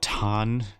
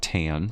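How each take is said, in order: First: It is said without an American accent. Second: It is said with an American accent.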